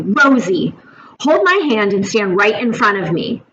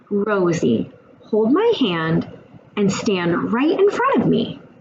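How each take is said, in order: First: The tone is harsh and aggressive. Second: The tone is soft and passive. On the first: The child is made to feel unsafe. "it was aggressive. It was the same words, but my tone changed" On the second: The child will test how far she can push. "That wasn't assertive either. It was passive"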